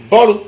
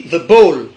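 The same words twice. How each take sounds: First: "ball" as two syllables, bo-lo; Godié pronunciation. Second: "ball" en une syllabe, English-style; prononciation anglaise. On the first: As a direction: add a final o to "ball": BO-lo. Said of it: "En godié, le ballon se dit". (« ball » à la godié, prononcé bo-lo) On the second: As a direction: say "ball" ending on the l, no added vowel. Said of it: "En anglais, le ballon se dit". (« ball » à l'anglaise, sans voyelle finale) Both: Shown as a demonstration.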